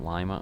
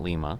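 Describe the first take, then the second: First: It sounds like the lima in lima bean. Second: It sounds like the name Lima, Peru. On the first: The speaker calls it right. "So they call it Lima, Ohio" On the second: The speaker calls it wrong. "it is not Lima, like Lima, Peru"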